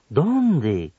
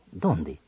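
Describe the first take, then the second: First: "¿Dónde?" full and falling; exclamation. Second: "¿Dónde?" much lower and softer; question. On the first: Radio teacher demonstrating admiración, exclaiming. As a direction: exclaim where. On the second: Radio teacher demonstrating a question, asking softly. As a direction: ask where, quietly. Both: Shown as a demonstration. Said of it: "en preguntas o admiración".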